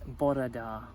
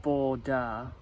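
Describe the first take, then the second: First: Bore Da slowly, with a tapped r, as bo-re da; correct Welsh pronunciation. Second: Bo Da with no r, said as a flat two-beat Bo Da; wrong pronunciation. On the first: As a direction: carefully give the corrected Welsh Bore Da, slow and deliberate. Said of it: "mainly 'cause of my bloody accent, it's". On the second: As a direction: deliberately say Bo Da the mistaken way, dropping the r sound. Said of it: "And she corrected me, so it's not". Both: Shown as a demonstration.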